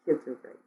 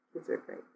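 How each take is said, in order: First: Said in the usual way. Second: Whispered to herself; soft whispered echo. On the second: Real, not acted. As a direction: breathe it as an aside. Repeating the line, then whispering it.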